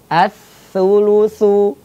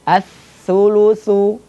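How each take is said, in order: The two takes are said the same way.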